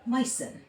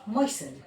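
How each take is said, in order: The two takes are said the same way.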